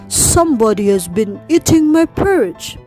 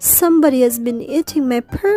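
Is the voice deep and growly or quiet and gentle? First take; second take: deep growly; quiet gentle. First: It is said in a deep, growly voice. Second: It is said in a quiet, gentle voice.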